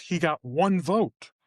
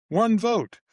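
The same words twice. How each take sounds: First: Said in the usual way. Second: One raised high and hit hard; stress on one. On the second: Real, not acted. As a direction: punch One high in disbelief. Emphatic repeat.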